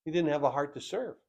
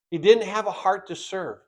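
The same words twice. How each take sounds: First: Much softer, quick and under the breath; a soft, quick aside to the congregation; hushed. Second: Said in the usual way. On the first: Acted. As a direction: drop the voice to almost nothing. Repeated line, first said hushed.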